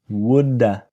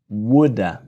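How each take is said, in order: First: 'Have' is reduced to an uh sound. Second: The same.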